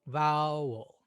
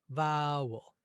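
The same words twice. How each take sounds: The two takes are said the same way.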